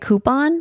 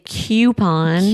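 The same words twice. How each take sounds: First: The word is said the East Coast way. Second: The word is said the Michigan way. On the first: "going to the East Coast, I started saying coupon" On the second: "but in Michigan, I would always say coupon"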